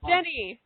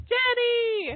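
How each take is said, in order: First: Said in the usual way. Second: Jenny called much higher, drawn out; a lilting high hail of Jenny. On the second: Real, not acted. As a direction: sing out Jenny up high to find her. Host calling the caller on line.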